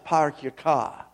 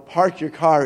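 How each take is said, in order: First: It is said in a New England accent. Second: It is said in a general accent. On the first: "they have their own way of speaking there" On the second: "It's not, you know, park your car"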